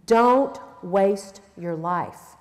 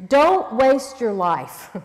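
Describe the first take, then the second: First: Slow, lower, laughing "Don't waste your life"; softer laughing repeat. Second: Slow, heavy stress on Don't; slow emphatic plea. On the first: Preacher repeating to the ladies, slow and laughing. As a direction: laugh through "Don't" and ease off. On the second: Preacher urging the women, slow and weighty. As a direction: lean hard on "Don't" and stretch the line. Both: Shown as a demonstration. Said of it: "He's really saying this".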